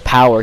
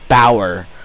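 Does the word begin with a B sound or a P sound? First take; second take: P sound; B sound. First: The word begins with a P sound. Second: The word begins with a B sound. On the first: "he never says power" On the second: "he says bower"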